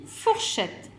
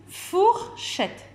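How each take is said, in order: First: Said in the usual way. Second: "fourchette" broken high and slow as four, then chette; split into syllables. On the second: Shown as a demonstration. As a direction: separate the first syllable of "fourchette". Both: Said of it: "commence par la syllabe".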